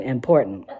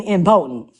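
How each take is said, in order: First: Important said with a laugh; important, chuckling; contrast important. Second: Impotent said firmly, stressed on the first syllable; correcting to impotent. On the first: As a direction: set important against impotent. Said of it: "I don't mean important". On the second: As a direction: insist on impotent. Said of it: "I mean impotent". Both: Shown as a demonstration.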